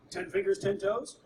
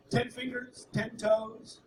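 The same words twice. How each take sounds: First: "Ten fingers, ten toes?" asked with a rising end; "Ten fingers, ten toes?" as one questioning phrase; checking question. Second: "Ten fingers, ten toes," listed item by item; "Ten fingers, ten toes," stressing each "ten" as a list; counting off. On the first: Acted check on new baby. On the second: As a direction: tick off "Ten fingers," then "ten toes," with a pause between. Parent counts off in reply. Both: Acted.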